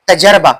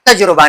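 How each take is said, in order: First: The vowel after the j is 'a'. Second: The vowel after the j is 'u'. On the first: The speaker calls it right. "इसका सही तलफ़्फ़ुज़ क्या है? तजर्बा या तजरिबा" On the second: The speaker calls it wrong. "तजुर्बा नहीं"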